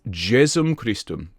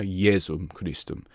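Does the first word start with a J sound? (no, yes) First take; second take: yes; no. First: The first word starts with a J sound. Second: The first word starts without a J sound. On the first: It follows the anglicised style of Latin. The speaker calls it right. "with a J" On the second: It follows the Italianate style of Latin. The speaker calls it wrong. "rather than a"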